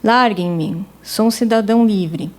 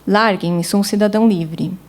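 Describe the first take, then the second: First: A long, full-stop pause separates the two phrases. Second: A short pause joins both phrases into one block. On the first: The speaker calls it wrong. "ler tudo como se fossem, de fato, pontos finais" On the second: The speaker calls it right. "faria uma pausa menor e leria como um bloco único"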